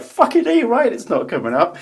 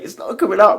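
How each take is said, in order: First: Very high, loud retold outburst; exasperated retort. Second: Dentist's loud, high exclamation, imitated; mock strained shout. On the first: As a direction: fire it back at a yell, hammed-up. Retells his own outburst back. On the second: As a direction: shout it like you're tugging in vain. Voices dentist straining at stuck tooth.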